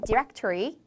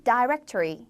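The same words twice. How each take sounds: First: Directory starting with di, like dih-rectory; American directory; 미국식 directory; American pronunciation. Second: Directory starting with dai, like dai-rectry; British directory; 영국식 directory; British pronunciation. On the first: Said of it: "미국 영어에서는 directory". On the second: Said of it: "영국 영어에서는 directory". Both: Shown as a demonstration.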